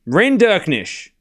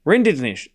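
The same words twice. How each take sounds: First: Rinderknech said slowly, every syllable with the K; slow careful pronunciation. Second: Rinderknech rushed, the K swallowed into RIN-di-nish; said quick. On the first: Streamer practising the name, slow and careful. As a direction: spell out Rinderknech slowly, K included. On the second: Streamer testing the name quickly, Australian rush. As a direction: rattle off Rinderknech fast. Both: Shown as a demonstration. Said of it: "Even if I say it quick".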